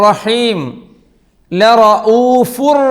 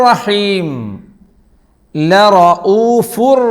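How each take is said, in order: No difference in how they are said.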